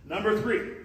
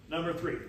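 First: Announcing. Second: Said in the usual way. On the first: Shown as a demonstration.

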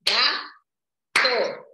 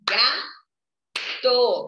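First: "Gato" as GA-TO, two slow syllables clapped out; split into syllables. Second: "Gato" broken into GA and TO with a clap on each; clapped syllables. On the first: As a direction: sound out "Gato" syllable by syllable for kids. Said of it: "Lembra que a tia Su ensinou". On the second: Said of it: "Batemos duas vezes palmas". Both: Shown as a demonstration.

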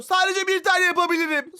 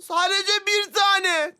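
First: Said in the usual way. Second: "Sadece bir tane" said slowly, each word pressed, "tane" held; slow down and lean hard on "Sadece bir tane"; insistent stress. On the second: Real, not acted. Insisting to his friend on only one challenge, slow and pressed.

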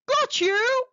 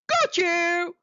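First: Sharp high triumphant snap, louder; snapped. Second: Higher, louder snap; snapped. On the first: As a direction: snap it as the shark grabs his prey. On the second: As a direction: pounce on the word got. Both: Acted. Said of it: "he snapped".

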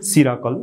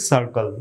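First: "সিরাকল", opening on a "si" with an extra "ra"; three-syllable "সিরাকল"; mispronounced circle. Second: "সার্কেল" said as sar-kel; two syllables, "sar" opening "সার্কেল"; correct circle pronunciation. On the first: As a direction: say circle wrongly as si-ra-kol. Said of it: "ভিডিওর প্রথম দিকে বলেছিলাম". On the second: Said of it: "উচ্চারণ করতে হবে". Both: Shown as a demonstration.

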